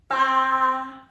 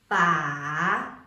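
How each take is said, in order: First: The pitch stays level and high. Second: The pitch dips down and then rises. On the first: "The first one is the flat tone" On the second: "The third one is a falling and rising tone"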